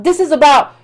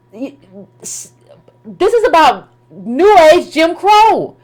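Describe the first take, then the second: First: Said in the usual way. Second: "this" dropped to a near-silent hush, then "is about New Age Jim Crow" drawn out slowly and pressed hard; slow, weighty emphasis. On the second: Shown as a demonstration. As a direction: land the point slowly, word by word. Repeated build-up before point.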